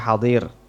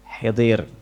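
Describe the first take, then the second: First: An a vowel follows the first h. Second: An i vowel follows the first h. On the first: "bukan hidir atau hadir" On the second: "bukan hidir atau hadir"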